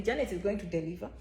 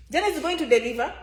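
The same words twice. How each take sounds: First: Soft, low and quiet; low murmured promise; quiet first take. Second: Faster and firmer; emphatic repeat. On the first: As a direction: lay it down quietly. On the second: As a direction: punch the promise. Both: Shown as a demonstration.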